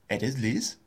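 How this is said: The voice rises at the end.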